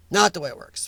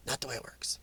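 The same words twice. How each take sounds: First: Said in the usual way. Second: A soft, breathy whispered aside. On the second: Real, not acted. Whispering the rebuttal to his viewers first. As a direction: drop to a whisper under your breath.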